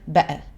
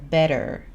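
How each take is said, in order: First: The middle t is left out entirely. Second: The middle t sounds like a soft d. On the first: This is another English way of saying it. "ou soit ils prononcent pas du tout le T" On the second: This is the American way of saying it. "les Américains, pour le mot better, ils vont dire better. On dirait qu'il y a un D"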